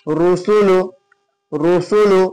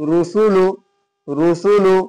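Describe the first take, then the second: The two takes are said the same way.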